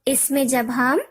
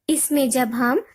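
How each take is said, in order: No difference in how they are said.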